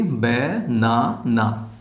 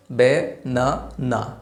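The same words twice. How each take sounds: First: বে-না-না split into three slow beats; split into syllables. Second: বে-না-না in three very slow, separate beats; split into syllables. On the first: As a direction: tap out each syllable of বে-না-না. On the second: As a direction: say বে-না-না one beat at a time. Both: Shown as a demonstration. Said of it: "উচ্চারণ করতে পারি তিনবারে".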